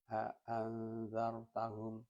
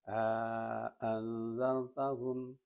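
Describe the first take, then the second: First: The vowel between the two glottal stops is short. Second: The vowel between the two glottal stops is long. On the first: "Yang kedua tidak alif, tidak dimasukkan alif" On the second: "di antara dua hamzah itu dimasuki atau dimasukkan alif mad tabi'i"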